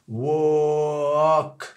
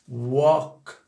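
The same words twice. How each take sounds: First: The word is said slowly, drawn out. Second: The word is said quickly. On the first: "tu pars du wo et tu vas vers le a" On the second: "à la vitesse rapide"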